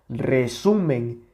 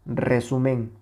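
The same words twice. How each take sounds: First: The stress falls on the middle syllable. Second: The middle syllable is not stressed. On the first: The speaker calls it right. "aquí se escucha la mayor intensidad" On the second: The speaker calls it wrong. "le acabamos de quitar la intensidad a esta sílaba y se escucha resumen"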